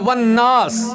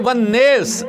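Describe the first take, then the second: First: The last word has an open 'aa' vowel. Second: The last word has a fronted 'ee' vowel. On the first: One reciter's reading. "वो कहता है वन नास" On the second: Another reciters' variant reading. "बाज कारी क्या कहते हैं वन नेस, और जेर का फर्क है"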